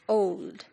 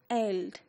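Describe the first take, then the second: First: The word is said with an 'o' vowel. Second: The word is said with an 'e' vowel. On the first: This is the modern form of the word. "now how do we pronounce it?" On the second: This is the older form of the word. "Here it is written as eld"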